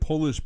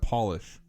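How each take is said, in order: First: It is pronounced as the nationality word. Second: It is pronounced as the shining word. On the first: It refers to people from Poland. "Polish like Polish people" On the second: It means to shine something. "or is that polish?"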